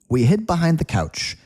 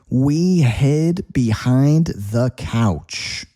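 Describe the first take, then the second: First: The sentence is said quickly and naturally. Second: The sentence is said slowly and carefully.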